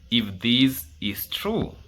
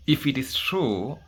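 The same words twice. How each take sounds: First: "if this is true" slowed, weight on "true" with a rising end; slow emphatic repeat. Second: Said in the usual way. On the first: Shown as a demonstration. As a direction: lean on "true", drawing it out. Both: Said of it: "and I repeat".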